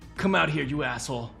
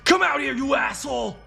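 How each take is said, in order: First: It is said calmly, without shouting. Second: It is shouted loudly, like an exclamation.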